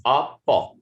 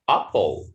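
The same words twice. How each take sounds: First: "apple" split in two with a gap, ending on "uh"; syllable by syllable. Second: Said in the usual way. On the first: Shown as a demonstration. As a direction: break "apple" into ap, puh. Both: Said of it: "the sound of schwa is a".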